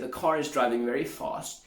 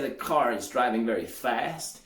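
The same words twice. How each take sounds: First: It is said in a British accent. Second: It is said in an American accent. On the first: "The British would say" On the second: "The Americans would say"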